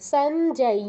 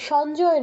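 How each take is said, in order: First: The final 'y' sound is clearly pronounced. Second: The final 'y' sound is weak or dropped. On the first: The speaker calls it right. "ইয়টা স্পষ্ট করে বলতে হবে" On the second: The speaker calls it wrong. "সঞ্জয় নয়"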